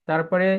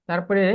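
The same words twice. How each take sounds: Both takes have the same delivery.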